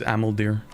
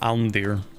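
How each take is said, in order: First: The name is said with three syllables. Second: The name is said with two syllables. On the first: The speaker calls it right. "it is Amaldir" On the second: The speaker calls it wrong. "for the longest time I used to call it Almdir"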